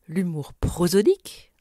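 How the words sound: The pitch rises and is forced on 'pro'. It draws attention to the nature of the humour. "en montant et en forçant sur la syllabe pro"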